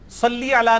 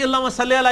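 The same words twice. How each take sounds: First: «صلی» ending in a clear "ee": "sal-lee"; maroof salli. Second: «صلی» ending in a lax "e": "salle"; majhool salle. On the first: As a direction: say «صلی» with a true long i at the end. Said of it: "معروف عربی میں یہ صلی لفظ ہے". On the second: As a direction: say «صلی» as "sal-lay", without the ee. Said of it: "کیونکہ مجہول پڑھ رہا ہوتا ہے". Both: Shown as a demonstration.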